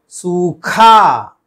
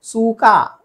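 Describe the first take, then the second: First: सूखा slow, loud puff on खा; forceful aspiration. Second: सूखा said as "sookaa"; no puff on the खा of सूखा; raised, brief सूखा with unaspirated k; wrong plain k. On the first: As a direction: stretch "soo-KHAA" in सूखा. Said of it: "जोर देकर". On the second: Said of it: "सूखा गलत है". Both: Shown as a demonstration.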